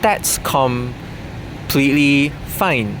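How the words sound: It is said in a put-on Southeast Asian accent.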